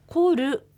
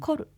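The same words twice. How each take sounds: First: The word ends with a full, drawn-out 'ru' syllable. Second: The word ends with a light, clipped r. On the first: The speaker calls it wrong. "こうコールと発音しないで" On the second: The speaker calls it right. "こう軽く言う"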